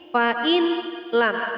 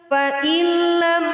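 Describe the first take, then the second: First: The n is pronounced separately before the l. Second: The n merges fully into the l, unnasalized. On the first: The speaker calls it wrong. "Membacanya tidak lagi seperti ini" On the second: The speaker calls it right. "idgham bi la gunnah, memasukkan dengan tanpa dengung"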